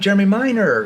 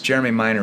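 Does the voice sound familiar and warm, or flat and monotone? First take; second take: familiar; monotone. First: It sounds warm, casual and familiar. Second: It sounds flat and monotone. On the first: The caller seems to already know the listener. The speaker calls it right. "See, that's a familiar tone" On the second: The caller sounds like a telemarketer. The speaker calls it wrong. "I sound monotone. I sound like a salesperson"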